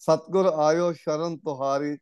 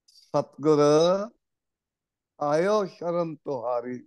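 First: It is read as a plain statement. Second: It is read as calling out to someone. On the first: The Guru has come into our refuge. The speaker calls it wrong. "ਅਰਥ ਗਲਤ ਹੋ ਜਾਂਦਾ ਹੈ" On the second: We have come into the Guru's refuge. The speaker calls it right. "ਸ਼ੁੱਧ ਪਾਠ ਹੋਏਗਾ, ਸਤਿਗੁਰੂ ਨੂੰ ਸੰਬੋਧਨ ਕਰ ਰਹੇ ਹਾਂ"

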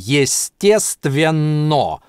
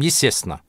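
First: Every sound in the word is pronounced fully. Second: The word is said quickly with sounds dropped. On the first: This is the form imagined while writing. "когда пишем, проговариваем в голове" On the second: This is how it sounds in fast speech. "а быстро мы говорим"

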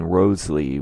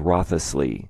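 First: The name is said without a 'th' sound. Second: The name is said with a 'th' sound. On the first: "which is how I pronounce it in these videos. I know I don't include the TH" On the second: "Many believe it was Wriothesley"

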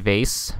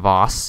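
First: The word is said the ordinary, plain way. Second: The word is said the fancy, posh way.

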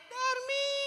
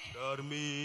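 First: It is said in a small voice. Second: It is said in a big voice. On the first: This is the little name. "orang suara lo kecil" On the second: This is the big name. "orang suaranya gede"

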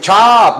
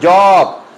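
First: The word starts with a voiceless 'ch' sound. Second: The word starts with a voiced 'j' sound. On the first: The speaker calls it right. "Se dice chop" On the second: The speaker calls it wrong. "no se dice job"

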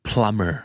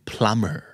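The two takes are said the same way.

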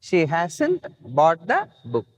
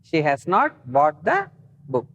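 First: Has and not are joined into one contracted word. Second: Has and not are said as two full words.

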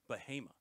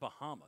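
First: The town name is said the local way. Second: The town name is said the outsider's way. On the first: This is how the locals say it. The speaker calls it right. "They pronounce it Bahama" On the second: This is how someone from out of town says it. The speaker calls it wrong. "It's not Bahama"

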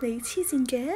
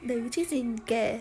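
First: It sounds like a question. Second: It sounds like a statement.

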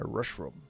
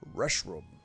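First: It is said in a Scooby-Doo voice. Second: It is said in the speaker's normal voice.

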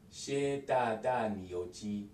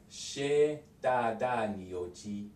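Both takes have the same delivery.

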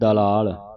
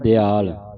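First: The word is said with an l sound: dalaal. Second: The word is said with a short i: diyaal. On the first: "ਆਪਾਂ ਪੜ੍ਹ ਜਾਂਦੇ ਦਲਾਲ, ਦਲਾਲ ਨਹੀਂ ਕਹਿਣਾ" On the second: "ਪਰ ਆਪਾਂ ਪੜ ਜਾਣੇ ਦਿਆਲ, ਦਿਆਲ ਵੀ ਨਹੀਂ ਕਹਿਣਾ"

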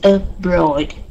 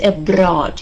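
First: The stressed vowel is made with rounded lips. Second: The stressed vowel is made without rounded lips. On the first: The speaker calls it right. "It is abroad. You have to make sure that your lips are rounded" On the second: The speaker calls it wrong. "we don't say abroad"

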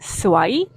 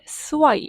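First: The pitch rises at the end of the word. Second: The pitch falls at the end of the word. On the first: It means pretty or beautiful. "스와이 이렇게 올리면 예쁘다" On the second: It means unlucky or jinxed. "끝을 스와이 이렇게 내리면 재수 없다"

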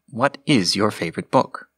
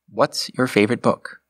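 First: What and is are said as two words. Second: What and is merge into one contracted word. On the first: It is slightly more formal. "the non-contracted version" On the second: It is slightly less formal. "The first option just slightly abbreviates the sentence by making a contraction"

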